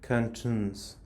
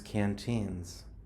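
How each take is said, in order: First: The second syllable has a short, unclear vowel. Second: The second syllable has a long 'ee' vowel. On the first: The speaker calls it wrong. "You're saying the word cantuns" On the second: The speaker calls it right. "but the word is canteens"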